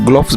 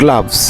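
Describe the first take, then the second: First: The vowel is a rounded O sound. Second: The vowel is an open uh sound. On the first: The speaker calls it wrong. "কখনই গ্লোভস বলবে না" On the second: The speaker calls it right. "We have to say গ্লাভস"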